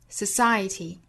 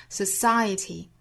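No difference in how they are said.

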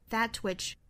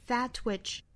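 The two takes are said the same way.

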